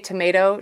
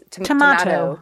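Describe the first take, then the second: First: Tomato is pronounced the usual Canadian way. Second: Tomato is pronounced the Irish way. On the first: "you know how we say tomato?" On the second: "She's tomato"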